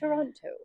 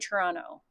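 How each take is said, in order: First: The word is said in its full careful form. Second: The word is said in a clipped, slangy form. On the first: "instead of" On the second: "I'm such a slanger. I say Toronto"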